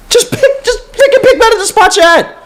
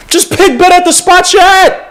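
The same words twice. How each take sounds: First: Very high, cracking half-laugh, half-whine; exasperated laugh-cry. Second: High, pushed plea with the word "pick" leaned on; exasperated plea. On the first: Fan begging the front office, laughing in despair. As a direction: break into a pained laugh on "pick". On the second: Fan begging the front office, rising exasperation. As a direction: beg them to just pick better. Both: Real, not acted.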